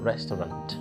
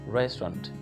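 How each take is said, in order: First: Every letter is pronounced in full. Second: Some letters are silent and the word is shortened. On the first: The speaker calls it wrong. "not restaurant" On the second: The speaker calls it right.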